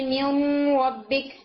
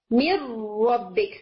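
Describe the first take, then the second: First: من ربک with a nasal hum on the noon, slowly; wrong nasal merge. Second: من ربک very slow, noon merged into ر with no nasal hum; no nasal sound. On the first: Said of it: "یوں نہیں کہتے". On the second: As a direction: drop the nose sound, roll straight from من into ربک. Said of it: "without nasal sound". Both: Shown as a demonstration.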